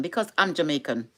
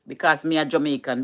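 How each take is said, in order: First: Said in the usual way. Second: Broad Jamaican patois phrasing. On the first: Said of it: "I know how to speak proper English". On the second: Shown as a demonstration. Explaining the accent to viewers, in Jamaican patois. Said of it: "them just love the patois".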